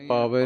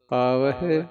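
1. ਸ਼ਬਦ ਸਾਦੇ 'e' ਸੁਰ ਨਾਲ ਖ਼ਤਮ ਹੁੰਦਾ ਹੈ। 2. ਸ਼ਬਦ ਹਲਕੇ 'hi' ਅੱਖਰ ਨਾਲ ਖ਼ਤਮ ਹੁੰਦਾ ਹੈ। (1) "ਪਾਵੇ ਨਹੀਂ ਕਹਿਣਾ" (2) "ਹਾਹੇ ਦੀ ਸਿਹਾਰੀ ਬੋਲਣੀ ਹੈ"

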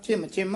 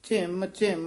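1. ਦੋਵੇਂ ਸ਼ਬਦ ਬਿਨਾਂ ਵਿਰਾਮ ਦੇ ਜੁੜੇ ਹੋਏ ਹਨ। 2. ਦੋਵੇਂ ਸ਼ਬਦਾਂ ਵਿਚਕਾਰ ਵਿਰਾਮ ਹੈ। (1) "ਸੰਬੰਧਕ ਹੀ ਹੈ" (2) "ਵੱਖਰਾ ਵੱਖਰਾ ਨਹੀਂ ਕਰਨਾ"

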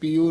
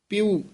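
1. ਪ ਤੋਂ ਬਾਅਦ ਵਾਲੀ ਸੁਰ ਲੰਮੀ ਇ ਹੈ। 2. ਪ ਤੋਂ ਬਾਅਦ ਵਾਲੀ ਸੁਰ ਛੋਟੀ ਇ ਹੈ। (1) "ਪਿਉ ਨਹੀਂ ਕਹਿ ਦੇਣਾ ਪੱਪੇ ਬਿਹਾਰੀ ਊੜੇ ਦਲੈਂਕੜ ਲਾ ਕੇ" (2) "ਪੱਪੇ ਸਿਹਾਰੀ ਊੜੇ ਦਲੈਂਕੜ ਦੇ ਨਾਲ"

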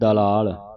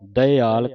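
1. ਇਸ ਦਾ ਉਚਾਰਨ ਲ ਦੀ ਆਵਾਜ਼ ਨਾਲ ਹੁੰਦਾ ਹੈ: dalaal। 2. ਇਸ ਦਾ ਉਚਾਰਨ ਵੱਖਰੇ ਸਵਰਾਂ ਨਾਲ ਹੁੰਦਾ ਹੈ: da-i-aal। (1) "ਆਪਾਂ ਪੜ੍ਹ ਜਾਂਦੇ ਦਲਾਲ, ਦਲਾਲ ਨਹੀਂ ਕਹਿਣਾ" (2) "ਦਇਆਲ ਕਹਿਣਾ ਹੈ"

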